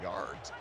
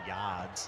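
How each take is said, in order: First: It is said in a plain, neutral accent. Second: It is said in a mock Boston accent.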